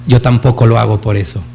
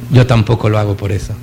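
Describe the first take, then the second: First: Plain gentle first saying of the line; gentle smiling reply. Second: The same line again, much lower and hushed; soft repeat. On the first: Mother Teresa answers the reporter, smiling gently. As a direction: say it kindly, with a smile. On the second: Speaker repeats Mother Teresa's answer to the room, hushed. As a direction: echo it softly, letting it sink in. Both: Retold or imitated. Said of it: "sonríe y le dice".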